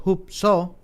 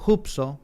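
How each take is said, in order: First: Final O of "hupso" stressed. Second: Said in the usual way. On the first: Shown as a demonstration. Preacher teaching a Greek word, stress on the final O of "hupso". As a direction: say "hupso" with the accent on its last syllable. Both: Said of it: "con acento en la O".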